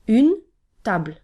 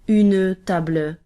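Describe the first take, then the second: First: The word ends on the consonant with no vowel. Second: A vowel is sounded after the final consonant. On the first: The speaker calls it right. "but une table. We only pronounce the consonant" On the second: The speaker calls it wrong. "We don't say une table"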